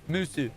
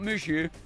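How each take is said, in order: First: The middle consonant is an s sound. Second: The middle consonant is an sh sound. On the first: The speaker calls it right. "Not Mushu. Musu" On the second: The speaker calls it wrong. "I keep saying it Mushu"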